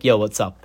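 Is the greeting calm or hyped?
calm. It is said in a calm, polite way.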